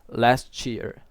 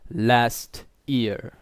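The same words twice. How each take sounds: First: The t links smoothly into the next word. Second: The two words are said separately. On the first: "there is a linking between those sounds" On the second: "do not say last year"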